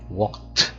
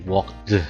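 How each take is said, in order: First: The ending is pronounced as a t sound. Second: The ending is pronounced as a d sound. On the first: The speaker calls it right. "I said walked because it's a lot easier to pronounce the T sound" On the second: The speaker calls it wrong. "I didn't say walked"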